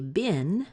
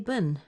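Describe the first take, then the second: First: The vowel is a short I sound. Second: The vowel is a schwa sound. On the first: "bin with a short I" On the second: "like a schwa in the middle"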